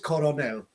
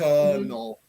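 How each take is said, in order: First: It is said with three syllables, like coronel. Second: It is said with two syllables, like kernel. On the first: The speaker calls it wrong. "the pronunciation which I hear from a lot of my Spanish friends" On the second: The speaker calls it right. "this is a very difficult one where it would be pronounced colonel"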